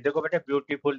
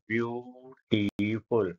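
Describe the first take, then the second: First: Said in the usual way. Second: Slow syllable demo. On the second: Shown as a demonstration. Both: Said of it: "इसमें तीन शब्दांश syllable है".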